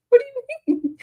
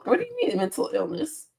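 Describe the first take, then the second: First: Very high, squeaky "What do you mean?"; high-pitched silly mock question. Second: Said in the usual way. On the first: Mocking a chat comment.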